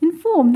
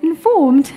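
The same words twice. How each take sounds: First: Lightly stressed British accent. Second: Higher, louder British accent, amused; playful British accent. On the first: Real, not acted. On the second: Shown as a demonstration. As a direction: repeat it in a British accent with a laugh. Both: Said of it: "That was a British accent there".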